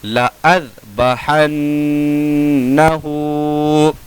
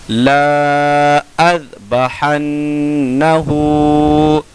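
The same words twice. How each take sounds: First: ला अज़बहन्नहु with a short ला; slow chanted ला अज़बहन्नहु, alif silent; correct recitation. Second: ला अज़बहन्नहु with ला held long; slow chanted ला अज़बहन्नहु, alif sounded; written-form reading. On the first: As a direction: clip ला, hum न्न, lengthen हु in ला अज़बहन्नहु. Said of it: "कैसे पढ़ेंगे?". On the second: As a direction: stretch ला, hum न्न, lengthen हु in ला अज़बहन्नहु. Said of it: "अलिफ नहीं पढ़ा जाएगा". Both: Shown as a demonstration.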